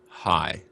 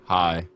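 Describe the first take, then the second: First: The greeting is lively, with more pitch movement. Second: The greeting is flat and low in energy. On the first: The speaker calls it right. "I did feel the inflection in your voice" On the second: The speaker calls it wrong. "that's unacceptable"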